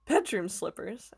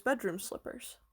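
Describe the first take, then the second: First: "Bedroom slippers?" drawn out slowly, rising at the end; slow wondering "Bedroom slippers?" with a rising end; puzzled question. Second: Said in the usual way. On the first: A narrator's reading. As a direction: echo it back in disbelief. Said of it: "asked Tom".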